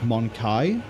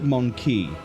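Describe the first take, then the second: First: The word ends with a 'kai' sound. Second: The word ends with a 'key' sound. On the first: "they pronounce it, like I just did" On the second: "She's pronounced it Monkey"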